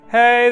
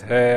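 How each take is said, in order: First: It is said in a high head voice. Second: It is said in a low chest voice. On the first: "this is my head voice up here" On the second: "I'm talking my chest voice down here"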